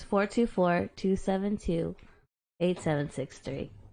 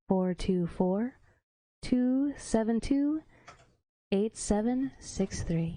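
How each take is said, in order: First: It is said in a plain, natural voice. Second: It is said in a put-on sultry voice.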